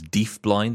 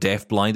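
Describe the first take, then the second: First: It is said with a Glaswegian Scottish pronunciation. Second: It is said in a neutral, non-Scottish way. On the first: The speaker calls it wrong. "that's very Scottish in its pronunciation" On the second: The speaker calls it right. "Instead of deaf blind"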